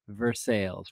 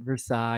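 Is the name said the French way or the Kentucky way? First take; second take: Kentucky; French. First: It is said the Kentucky way, ver-SALES. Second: It is said the French way, ver-SIGH.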